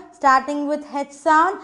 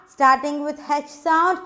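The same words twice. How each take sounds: The two takes are said the same way.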